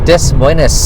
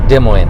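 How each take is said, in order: First: The s sounds are pronounced in both parts. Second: The s sounds are silent in both parts. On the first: The speaker calls it wrong. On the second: The speaker calls it right.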